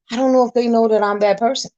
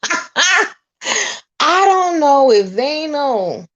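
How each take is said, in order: First: Said in the usual way. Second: High, loud, slow stretch on "don't know"; laugh, then draw out "I don't know if they know" high; drawn-out emphatic repeat. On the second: Real, not acted. Vlogger joking about relatives knowing her, drawn-out and emphatic.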